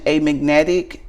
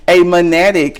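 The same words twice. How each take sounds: First: Said in the usual way. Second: MONADIC for magnetic, louder, in a country accent; country-accent magnetic with the g swallowed. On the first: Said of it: "read that one more time". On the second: Real, not acted. Reader retrying a card word after laughing, country accent. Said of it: "that's my country accent".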